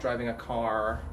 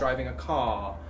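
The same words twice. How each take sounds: First: The final R in car is clearly pronounced. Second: The final R in car is dropped.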